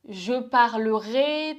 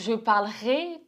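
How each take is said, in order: First: The middle E of parlerai is pronounced. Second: The middle E of parlerai is dropped.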